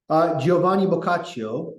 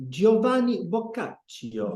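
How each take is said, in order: First: Said in the usual way. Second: Giovanni Boccaccio in a hammed-up Italian accent, higher and slow; mock Italian accent. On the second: Shown as a demonstration. Teacher mocking fancy pronunciation to the class, exaggerated Italian accent. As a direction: roll out Giovanni Boccaccio like a pompous Italian, slowly. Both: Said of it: "let me read it more potentially".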